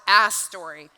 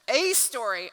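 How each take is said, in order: First: The article 'a' sounds like 'ah'. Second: The article 'a' sounds like 'ay'. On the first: The speaker calls it wrong. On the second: The speaker calls it right.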